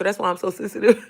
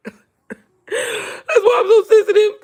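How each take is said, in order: First: Said in the usual way. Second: High, slow, laughing whimper; mock sensitive laugh-cry. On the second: Jokes she is sensitive, laughing mock cry. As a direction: ham up being sensitive with a laughing sob.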